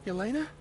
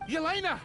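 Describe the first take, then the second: First: YELENA as a rising question; hopeful, uncertain "Yelena?"; questioning call. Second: YELENA cried out high, falling at the end; pleading cry of "Yelena!"; desperate calling out. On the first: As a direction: ask YELENA, lifting at the end. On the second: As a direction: call YELENA in a high, urgent pitch. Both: Acted. Calls out for absent woman.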